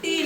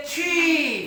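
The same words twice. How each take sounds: First: Said in the usual way. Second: छी with a breathy "chh" release and long "ee"; aspirated T. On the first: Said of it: "टी नहीं पढ़ते". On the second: Shown as a demonstration. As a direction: draw out छी for the letter T. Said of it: "इसको पढ़ेंगे छी".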